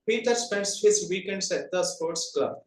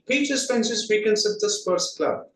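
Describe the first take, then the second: First: The small grammatical words are said in full. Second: The small grammatical words are weak and reduced. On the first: "That is the general way of telling" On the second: "how is it coming in rhythmic pattern?"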